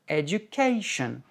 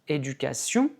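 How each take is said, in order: First: It is said with an English pitch accent. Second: It is said flat, in a French way. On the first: "en anglais, ... education" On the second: "en français on dit ... éducation"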